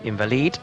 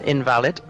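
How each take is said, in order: First: It is said in a Spanish accent. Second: It is said in a plain English accent.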